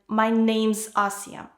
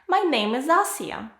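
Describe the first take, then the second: First: Name and is are joined into one syllable. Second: Name and is are said as separate words.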